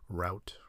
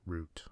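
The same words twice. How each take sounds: First: Route said to rhyme with out. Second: Route said to rhyme with boot; oo pronunciation. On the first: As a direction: say Route with an ow vowel. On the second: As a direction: say route with a long oo. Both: Shown as a demonstration. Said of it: "these words that you don't really know".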